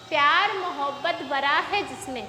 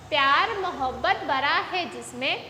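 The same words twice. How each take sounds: The two takes are said the same way.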